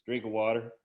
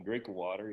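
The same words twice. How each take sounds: First: Louder, lightly imitated African-American accent; punchline reply in a mock African-American accent. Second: Put-on easy, understated retelling of the kid's African-American accent; rolled off the tongue. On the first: Kid answering the principal's scolding, imitated African-American accent. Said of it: "in that African-American kind of accent". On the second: Recalling how the kid said it, African-American accent rolled off the tongue. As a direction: let it roll casually off the tongue, imitated African-American accent. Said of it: "just kinda let it roll off his tongue".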